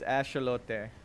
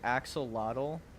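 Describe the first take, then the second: First: The word is said with Spanish-style pronunciation. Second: The word is read with English pronunciation. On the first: The speaker calls it right. "It's axolote. Uh, or something like that" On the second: The speaker calls it wrong. "If you pronounce it axolotl, you're wrong"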